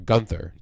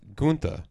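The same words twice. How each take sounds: First: The name is said plainly, without an accent. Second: The name is said with a foreign accent.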